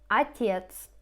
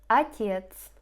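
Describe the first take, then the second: No difference in how they are said.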